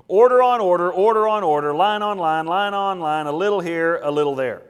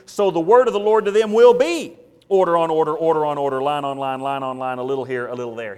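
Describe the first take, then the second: First: Chanted, loud, sing-song taunt of the prophet's words; chanted, parrot it back with scorn; loud mocking childish chant; mocking singsong chant. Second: Loud, then fading reading of the verse; proclaiming the verse, dropping away at the end; solemn scripture reading. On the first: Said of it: "now they're quoting his message back to him". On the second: Acted. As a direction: read it as God's sentence. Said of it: "See it in verse thirteen?".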